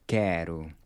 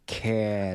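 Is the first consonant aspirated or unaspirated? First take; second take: unaspirated; aspirated. First: The k sound has no puff of air. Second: The k sound has a puff of air. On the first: The speaker calls it right. "No puff of air" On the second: The speaker calls it wrong. "Notice how I'm not saying quero"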